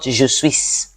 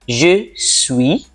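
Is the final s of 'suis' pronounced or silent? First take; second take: pronounced; silent. First: The final s of suis is pronounced. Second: The final s of suis is silent. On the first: The speaker calls it wrong. "Notice not je suis" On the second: The speaker calls it right. "when a word ends in a consonant, you do not pronounce the word"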